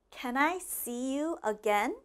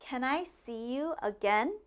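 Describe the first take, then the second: Both takes have the same delivery.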